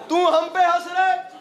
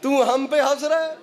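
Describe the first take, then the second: First: Climactic shout. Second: Said in the usual way. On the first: Shown as a demonstration. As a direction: hurl the line at the crowd at full force.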